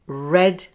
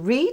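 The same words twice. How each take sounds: First: The vowel is short, like in 'bed'. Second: The vowel is long, like in 'bead'. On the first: It refers to the past. "read in the past tenses" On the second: It refers to the present. "to read in the present tense"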